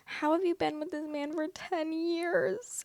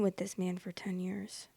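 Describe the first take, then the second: First: Much higher and slow, incredulous; stunned disbelief. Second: Whispered under the breath, stunned; whispered disbelief. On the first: Reacting to the ten-year relationship, high incredulous disbelief. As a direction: ask it in sheer disbelief, drawn out high. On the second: Repeating the question to herself, stunned whisper. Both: Real, not acted.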